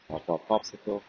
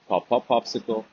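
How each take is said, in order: First: It is spoken softly. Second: It is spoken at normal loudness.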